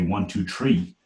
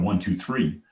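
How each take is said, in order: First: The last number begins with a plain t sound. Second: The last number begins with a th sound. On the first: This is the childhood island accent. The speaker calls it wrong. "I can't pronounce my ths. So I say" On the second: This is the expected standard pronunciation. The speaker calls it right. "instead of"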